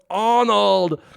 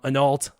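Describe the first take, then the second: First: The name is said with R and D sounds. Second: The name is said without R or D sounds. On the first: The speaker calls it right. "No, it's Arnold" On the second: The speaker calls it wrong. "I probably mispronounced his name back then"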